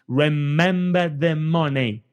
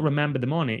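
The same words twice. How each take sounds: First: It is said with strongly exaggerated articulation. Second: It is said flatly, without exaggeration.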